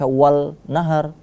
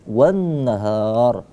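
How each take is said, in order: First: The article is pronounced with a clear l. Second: The l merges into a doubled n. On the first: The speaker calls it wrong. "tidak kita baca wal nahar" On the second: The speaker calls it right. "tapi wan nahar"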